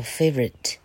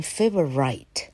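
First: Said in the usual way. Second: "favorite" ending like "right", long I; mispronounced favorite. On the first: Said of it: "这时候念作favorite". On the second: Shown as a demonstration. Teacher showing students the wrong reading, mispronounced favorite with long I. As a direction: say "favorite" as FAY-vuh-RITE. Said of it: "这个时候不念favorite".

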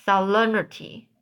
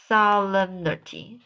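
First: "solemnity" with a falling, finished ending; settled retry. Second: "solemnity" with a questioning rise at the end; tentative retry. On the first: Reader repeats the hard word, settled falling "solemnity". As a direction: settle "solemnity" with the pitch dropping at the end. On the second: Reader tries out a hard word, tentative rising "solemnity". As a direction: try "solemnity", lifting the last syllable unsurely. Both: Real, not acted.

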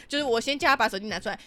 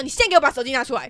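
First: Said in the usual way. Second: A touch louder and quicker, commanding; retold order. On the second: Ordering the boss to hand over his phone: firm fast command.

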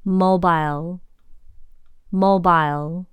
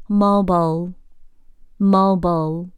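First: Mobile said "MO-bile" with a long i; British pronunciation. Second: Mobile said "MO-bul" with a reduced end; American pronunciation. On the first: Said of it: "英式". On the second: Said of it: "美式". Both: Shown as a demonstration.

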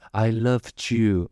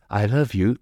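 First: "loved you" slow, the d joined onto "you"; audible past ending. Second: Said in the usual way. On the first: Shown as a demonstration. Teacher contrasting past with present, slow "loved you" with the d sounded. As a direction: draw out "I loved you" so the d is heard. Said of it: "有那个的在". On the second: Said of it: "这个是一个事实".

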